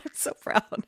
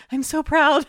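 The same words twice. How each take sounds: First: Soft, voiceless echo of pride; hushed pride. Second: High-pitched gush of pride; mock-emotional proud squeal, pitched right up. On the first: Retold or imitated. Telling of a kid hooked on Fork videos, whispering proudly. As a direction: overcome with mock emotion, dropping to a whisper. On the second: Telling of a kid hooked on Fork videos, gushing proudly.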